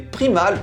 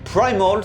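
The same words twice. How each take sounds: First: The word is pronounced the French way. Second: The word is pronounced the English way.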